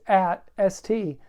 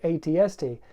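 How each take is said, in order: First: It is said as one word. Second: Each letter is said separately. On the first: The speaker calls it wrong. "just doesn't really sound right" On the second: The speaker calls it right. "you have to say"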